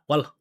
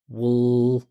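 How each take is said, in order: First: It is thin, without deep vibrating resonance. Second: It is held out with a deep, vibrating resonance. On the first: It sounds like an emotional noise, not speech. The speaker calls it wrong. "For native speakers here, that's just a noise" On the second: It clearly signals that someone is speaking. The speaker calls it right. "Let me hold it out for you. Listen"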